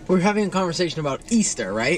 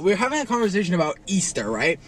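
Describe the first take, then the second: First: The sentence is said in a calm tone. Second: The sentence is said in an angry tone. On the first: The speaker calls it wrong. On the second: The speaker calls it right.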